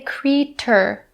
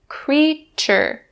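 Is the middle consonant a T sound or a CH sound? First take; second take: T sound; CH sound. First: The middle consonant is a plain T sound. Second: The middle consonant is a CH sound. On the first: The speaker calls it wrong. "we don't actually pronounce it with the T sound. We don't say creature" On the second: The speaker calls it right. "It's actually the voiceless C H sound. So we say creature"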